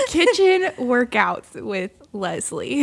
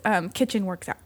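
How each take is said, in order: First: Slow, deliberate "Kitchen workouts" with a laugh; careful correction. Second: "kitchen works out" read as three loose words, workout split apart; fumbled reading. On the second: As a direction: stumble over "kitchen works out" as if misreading. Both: Real, not acted. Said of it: "Maybe I just need to hit pause".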